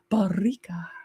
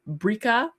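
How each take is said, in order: First: The R is rolled with a trill. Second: The R is said plainly, not rolled.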